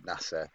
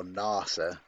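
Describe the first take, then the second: First: "nasa" with a short first a; first pronunciation. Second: "nasa" with a long first a; alternative pronunciation. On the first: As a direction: say "nasa" with the a of "cat". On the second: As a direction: draw out "nasa" as NAH-suh. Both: Shown as a demonstration. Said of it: "however they pronounce it".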